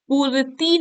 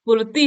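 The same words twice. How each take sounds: First: पूर्ति with its vowel length swapped, higher pitch; wrong form. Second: पूर्ति with long oo and short final i; correct form. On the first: Teacher showing a vowel-length error, wrong form. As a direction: say पूर्ति high, as the mistaken version. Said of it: "पूर्ति नहीं होता है". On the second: Teacher correcting vowel length, correct form. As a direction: say "poor-ti" for पूर्ति. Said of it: "पूर्ति होता है". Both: Shown as a demonstration.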